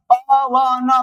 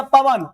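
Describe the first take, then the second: First: पवन stretched out sound by sound. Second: Said in the usual way. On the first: Shown as a demonstration. Teacher spelling Hindi for students, पवन sounded out piece by piece. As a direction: draw पवन apart into its separate sounds. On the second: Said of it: "Hindi में लिख दिया पवन".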